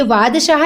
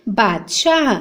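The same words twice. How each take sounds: First: "वादशाह" with v at the start; wrong pronunciation. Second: "बादशाह" with b at the start; correct pronunciation. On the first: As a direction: say "वादशाह" as vaad-shah. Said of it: "ये वादशाह लिखा है". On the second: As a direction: say "बादशाह" as baad-shah. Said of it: "जबकि क्या होता है". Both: Shown as a demonstration.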